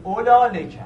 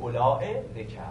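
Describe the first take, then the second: First: اولا running straight into لکه, no hamza; با قصر. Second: Soft, lengthened olā-e in اولا before لکه. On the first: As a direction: join اولا to لکه with no glottal stop between. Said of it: "قصر رو تلفظ بکنید". («اولا لکه» با قصر، بدون همزه) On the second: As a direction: stretch اولا and add hamza before لکه. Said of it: "با حالت مد تلفظ کردید". («اولا لکه» با مد و همزه در «اولا») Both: Shown as a demonstration.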